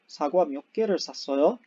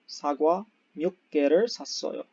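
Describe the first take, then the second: First: The voice rises at the end. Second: The voice falls at the end. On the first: It is a question. "raising our inton uh, intonation" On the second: It is a statement about buying some apples. "You could also say that you bought some apples"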